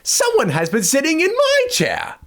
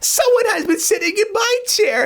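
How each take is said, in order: First: It is said in a medium voice. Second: It is said in a small voice. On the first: "said in her middle-sized voice" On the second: "cried in his wee little voice"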